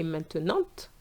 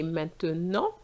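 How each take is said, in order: First: Maintenant with the final T sounded; wrong maintenant. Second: Maintenant with a silent T, nasal ending, men-te-NAHN; right maintenant. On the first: Teacher shows the wrong final consonant, wrong pronunciation. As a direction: pronounce the final T of maintenant, the mistake. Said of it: "I didn't say". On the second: Teacher gives the correct silent T, French pronunciation. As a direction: drop the T of maintenant, nasal close. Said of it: "The T is silent". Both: Shown as a demonstration.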